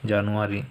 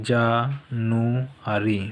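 First: Said in the usual way. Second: "January" drawn out slowly with a gap between syllables; broken into syllables. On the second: Shown as a demonstration. Teacher breaking up the month for pupils to memorise, "January" syllable by syllable. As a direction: say "January" in three separate, slow pieces. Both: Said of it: "ভেঙে ভেঙে বলে দেবো".

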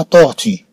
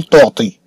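First: Second T of طورتي as light Arabic ت; طورتي ending in a light, non-emphatic "tī"; correct pronunciation. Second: Second T of طورتي as heavy Arabic ط; طورتي with a dark, emphatic final "tī"; wrong pronunciation. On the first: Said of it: "بل قلنا طورتي". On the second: أننا لم نقل طورتي. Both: Shown as a demonstration.

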